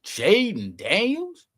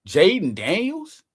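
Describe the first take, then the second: First: Even slower, higher rising disbelief; drawn-out amazed echo; more incredulous. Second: Slow rising disbelief; can you believe it?; stretched, amazed question; incredulous. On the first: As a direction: savor the name in awe. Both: Real, not acted.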